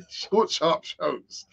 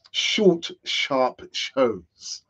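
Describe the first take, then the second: First: Laughing. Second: Said in the usual way. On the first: Real, not acted. Repeats phrase, laughing through it.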